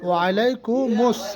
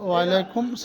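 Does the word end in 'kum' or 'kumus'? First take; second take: kumus; kum. First: The word ends in 'kumus' with an added syllable. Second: The word ends in 'kum' with no added syllable. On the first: The speaker calls it right. "কিন্তু ওখানে হবে ওয়ালাইকুমুস" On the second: The speaker calls it wrong. "এই চাষা যে উত্তর দিচ্ছে ওয়ালাইকুম সালাম"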